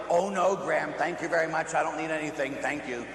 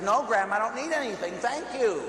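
First: Lightly acted polite refusal; courteous mock no-thanks. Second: Higher-pitched, emphatic acted refusal; polite but insistent protest. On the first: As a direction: decline politely, easing down at the end. Playing polite game with grandmother. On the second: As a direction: refuse firmly, pitch climbing to the final thank you. Refuses pushed money more insistently.

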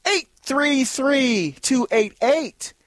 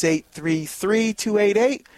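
First: Slow call-in number. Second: Said in the usual way. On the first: Shown as a demonstration. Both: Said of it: "Give us a call".

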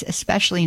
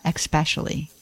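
First: "especially" begun with a plain S sound; correct "especially", no X. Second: "especially" mispronounced "ek-specially"; wrong "especially" with X. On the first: Host contrasting for listeners, "especially" with S and no X. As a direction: say "especially" as "ess-pecially". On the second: Host showing the common error, "especially" said with an X. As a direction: put a K sound before the S in "especially". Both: Shown as a demonstration. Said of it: "not especially".

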